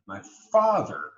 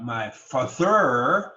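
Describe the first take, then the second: First: "father" as FA-ther, first syllable stressed; natural stress. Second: "father" as fa-THER, end loud and drawn out; wrong-syllable stress. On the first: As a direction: stress FA in "father", let the end drop. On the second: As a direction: slowly punch the last syllable of "father". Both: Shown as a demonstration.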